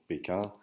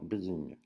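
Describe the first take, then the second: First: The name is said with French pronunciation. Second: The name is said with Chinese-like pronunciation. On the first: This is the usual French name for the city. "c'est selon notre euh, code d'al- alphabétique et notre prononciation" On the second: This follows how the Chinese themselves say it. "si on veut respecter euh, la phonétique euh, chinoise"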